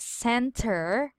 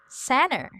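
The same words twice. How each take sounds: First: The middle t sound is clearly pronounced. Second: The middle t sound is left out. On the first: "this one is spelled as center" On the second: "You will remove the T sound"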